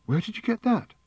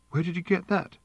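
First: A much higher sharp question with a catch of breath; sharp gasping question. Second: A lightly voiced sharp question with a catch of breath; a high, startled snap of a question; sharp gasping question. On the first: Fenchurch demands where Wonko got the bowl, high and sharp. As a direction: snap it out, high and startled. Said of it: "said Fenchurch sharply, and with a gasp in her voice". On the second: Arthur tries to ask about the bowl, mildly sharp and startled. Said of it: "sharply, and with a gasp in his voice". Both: A narrator's reading.

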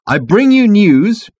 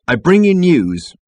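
First: Louder, higher, very drawn-out proclamation; insistent announcement. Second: Slow, raised proclamation; firm announcement. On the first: Ford presses on past the captain, insistent. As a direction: proclaim it slowly, refusing interruption. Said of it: "Ford refused to be headed off". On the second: Ford starts his announcement, firmly. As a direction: proclaim it slowly to the crowd. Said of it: "be a little stronger on the subject". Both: A narrator's reading.

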